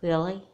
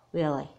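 First: REALLY lifted at the end as a question; doubtful question. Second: REALLY falling at the end, as an answer; sincere confirmation. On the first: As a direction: ask "Really?" with a small rising tune. Doubting question in acted apology scene. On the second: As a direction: answer "Really" low-key, tune going down. Kidnapper answers to confirm apology. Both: Acted.

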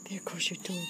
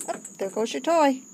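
First: Hushed whisper about the toy; whispered playful pet talk. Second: Said in the usual way. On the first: Real, not acted. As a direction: whisper it to the cat as you play. Playing with cat's toy.

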